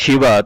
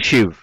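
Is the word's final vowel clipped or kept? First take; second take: kept; clipped. First: The word ends with a full final vowel. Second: The word ends with the final vowel cut. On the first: "तुम्ही म्हणालात" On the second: "ते म्हणतील"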